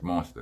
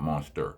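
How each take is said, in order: First: The word ends in an open 'ah' sound. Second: The word ends in an 'er' sound. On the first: The speaker calls it right. "Monster is spelled with an A" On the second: The speaker calls it wrong. "not monster. No E R"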